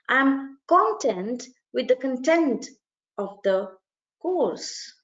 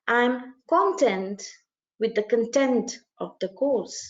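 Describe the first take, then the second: First: Slow, "content" stressed on CON where tenn is meant; reversed stress error. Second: "I'm content" very slow, "content" stressed CON-tent; reversed stress error. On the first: Teacher demonstrating the wrong swapped stresses, slowly. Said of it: "he is supplanting the first content with content". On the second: Teacher repeating the wrong sentence, very slowly. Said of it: "What is he saying?". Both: Shown as a demonstration.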